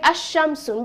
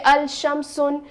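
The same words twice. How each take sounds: First: "ash-shamsun" with no l and a doubled sh; assimilated lam. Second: "al-shamsun" with the lam sounded; wrong pronunciation. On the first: Teacher recalling the sun-letter form. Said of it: "we said". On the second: Teacher contrasting the wrong lam form. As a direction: say "al-shamsun" with a clear l as the mistake. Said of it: "We didn't say". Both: Shown as a demonstration.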